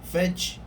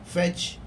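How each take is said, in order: First: The final consonant is released with a puff of air. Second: The final consonant is released with a puff of air.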